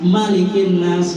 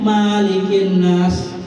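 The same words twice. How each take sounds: First: The vowel after the m is short. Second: The vowel after the m is long. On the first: The speaker calls it right. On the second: The speaker calls it wrong.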